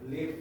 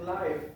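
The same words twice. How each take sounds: First: The vowel sounds like 'ih', short and lax. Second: The vowel sounds like 'eye', a long diphthong. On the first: The speaker calls it right. "live ya, tinggal" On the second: The speaker calls it wrong. "jangan bilang live"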